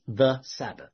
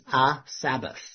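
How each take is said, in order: First: "the" leaned on as the definite article; "the Sabbath" with the weight on "the"; stress on the. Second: "a" said plainly as the indefinite article; "a Sabbath" with light weight on "a"; stress on a. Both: Shown as a demonstration. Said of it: "is not the same as".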